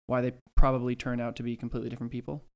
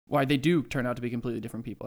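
First: Said in the usual way. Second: Quick restatement leaning on "do"; fast, with "do" raised for emphasis; stress on DO. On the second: Real, not acted. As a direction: correct yourself by punching the word "do". Corrects "probably" to "do.

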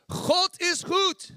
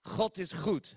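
First: "God is goed" very high, loud and slow; fervent Dutch shout. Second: Laughing take. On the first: Preacher urging Jessica up, a loud, high, slow shout. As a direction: belt "God is goed" like a revival. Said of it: "You should be on your feet like". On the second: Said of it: "repeated laughing". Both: Shown as a demonstration.

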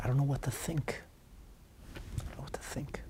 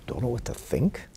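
First: Hushed, fading to almost a whisper; helpless quiet quote. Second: Questioning echo with a rising end; incredulous echo. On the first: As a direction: voice the student's helplessness, very softly. Student's helpless written plea, acted. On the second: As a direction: throw it back as a question. Rebbe echoes student as question. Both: Retold or imitated.

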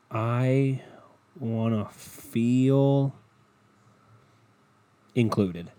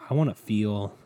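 First: Very slow, long pauses between phrases; drawn-out emphasis. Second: Said in the usual way. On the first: Retold or imitated. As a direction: stretch "feel" out long, then pause before "included". Restarts quote, drawn out for effect.

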